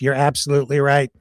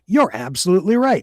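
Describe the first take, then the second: First: It is said in a put-on computer voice. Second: It is said in a natural human voice. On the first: The speaker calls it right. "I have to be Grok's voice for him" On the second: The speaker calls it wrong. "I'm screwing up computer voice"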